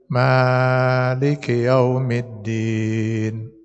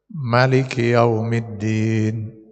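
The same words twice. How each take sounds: First: The vowel after the m is drawn out long. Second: The vowel after the m is kept short. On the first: "dipanjangkan huruf mimnya dua, dua harakat" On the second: "dipendekkan mimnya. Jadi tanpa dua harakat"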